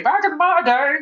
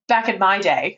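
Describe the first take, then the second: First: Higher, lightly voiced old lady; mock a little old lady reminiscing. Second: Said in the usual way. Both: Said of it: "I sound like an old lady".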